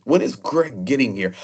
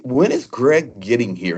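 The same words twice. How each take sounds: First: Put-on booming British accent, slightly raised; a light British boom, quoting a friend. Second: Put-on slow, booming British accent, slightly raised; a lightly done booming British voice. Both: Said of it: "in that British booming accent".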